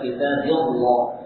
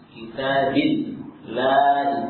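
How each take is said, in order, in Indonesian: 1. Bunyi l itu berat dan tebal. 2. Bunyi l itu ringan dan tipis. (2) "Kalau sebelumnya kasrah, maka tipis"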